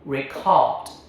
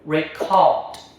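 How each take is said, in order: First: The stress is on the second syllable. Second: The same.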